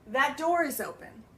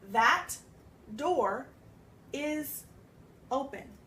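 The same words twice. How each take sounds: First: The T and D blend into one sound. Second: The T and D are said separately. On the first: "Do you hear how it runs together? The T and the D end up becoming one sound" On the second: "if we separate it"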